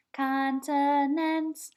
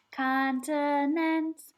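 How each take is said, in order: Both takes have the same delivery.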